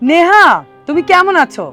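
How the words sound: It is spoken in a high pitch register. "তারপরেরটা বলেছি তারা থেকে"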